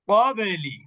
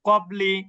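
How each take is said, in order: First: The stopped consonant ends with a short echoing bounce. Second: The stopped consonant ends quietly with no bounce. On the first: The speaker calls it right. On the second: The speaker calls it wrong.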